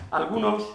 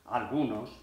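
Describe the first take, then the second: First: "Algunos" pitched high and firm; emphatic first take. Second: "algunos" dropped low and soft; toned-down repeat. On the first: Actor telling of struggling classmates, "Algunos" high and emphatic. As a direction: put out "Algunos" high, as an announcement. Repeats the word, toning it down. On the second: Actor qualifying his remark on classmates, "algunos" low and subdued. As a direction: lower and soften "algunos", as a qualification. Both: Acted.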